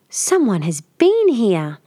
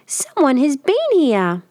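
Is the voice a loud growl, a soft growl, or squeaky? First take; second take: soft growl; squeaky. First: The voice is a soft growl. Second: The voice is a high squeak. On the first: A middle-sized bear is speaking. "Mother Bear growled, more softly" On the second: A small bear is speaking. "he cried in a very squeaky voice"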